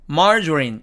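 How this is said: It is said with English pronunciation. "영어식으로 읽으면"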